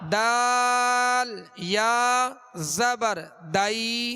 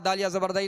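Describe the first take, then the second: First: Each letter name is said separately and clearly. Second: The letter names are slurred and run together. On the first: The speaker calls it right. "हर हर हर्फ का अलग उसका वाज़ेह नाम लें" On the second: The speaker calls it wrong. "वरना जैसे बसा औक़ात ऐसा भी होता है कि जैसे यूं पढ़ा जाता है"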